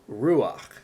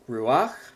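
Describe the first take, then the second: First: The stress is on the first syllable. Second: The stress is on the last syllable. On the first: The speaker calls it right. "it's pronounced ruach" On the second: The speaker calls it wrong. "this is not pronounced ruach, which would be following the regular rules of Hebrew with the accent on the last syllable"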